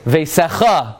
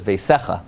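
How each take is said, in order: First: "veisecha" punched on the final "cha"; "veisecha" with the accent wrongly at the end; mispronounced stress. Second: "veisecha" stressed on the middle "se"; "veisecha" with an unstressed final "cha"; correct stress. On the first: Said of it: "There's also no word veisecha". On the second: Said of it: "'cause that word is veisecha". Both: Shown as a demonstration.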